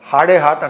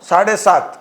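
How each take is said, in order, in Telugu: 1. ఈ పదాలు h ధ్వనితో మొదలవుతాయి. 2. ఈ పదాలు s ధ్వనితో మొదలవుతాయి.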